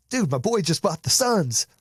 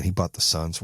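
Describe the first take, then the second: First: High-pitched, thrilled bragging on a buddy; good envy. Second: Unimpressed, grudging acted envy; jealousy. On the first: Acted. Showing good envy of friend's purchase, excited. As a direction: gush proudly about your friend's big news. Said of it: "is good envy". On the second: Showing bad envy of Suns purchase, jealous. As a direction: begrudge him the purchase, no excitement. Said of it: "That's jealousy".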